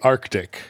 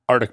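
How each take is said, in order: First: The word is said with the middle k sound. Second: The word is said without the middle k sound. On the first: This makes the speaker sound like an outsider. "I even call the street Arctic, and I sound like an out-of-towner" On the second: This is how local people say the street name. "No one pronounces the C in it"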